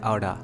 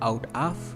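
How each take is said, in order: First: The words blend into one reduced word. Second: Both words are said separately and fully. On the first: "जिसको बोला जाता है आउडा" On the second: "अब एक होता है out of"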